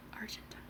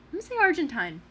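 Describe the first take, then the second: First: Argentine whispered softly, trying the word out; whispered trial of Argentine. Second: Argentine said firmly, ar-jen-TINE, higher; Argentine decided. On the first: Herself deciding how to say it, whispered. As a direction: test Argentine under your breath. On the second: Settling the pronunciation for viewers, said firmly. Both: Shown as a demonstration. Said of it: "What do I decide?".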